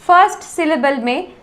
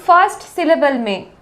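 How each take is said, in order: Both takes have the same delivery.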